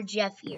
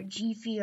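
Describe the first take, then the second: First: "Jeffy" with short e, as in "Jeff"; first guess at the name, "Jeffy" rhyming with "heffy"; uncertain pronunciation. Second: "Jeffy" with long ee, as JEE-fee; offhand second guess, "Jeffy" with the vowel of "jeep"; alternative pronunciation. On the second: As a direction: say "Jeffy" like "Jeefy". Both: Shown as a demonstration. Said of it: "or however it's pronounced".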